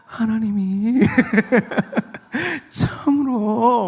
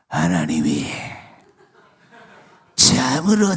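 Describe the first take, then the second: First: The voice sounds sweet and enticing. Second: The voice sounds creepy and menacing. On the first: The tempter spoke alluringly to entice her. The speaker calls it right. "달콤한 목소리로" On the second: The tempter would not have spoken this way. The speaker calls it wrong. "이렇게 징그럽게 말 안 했을 거예요"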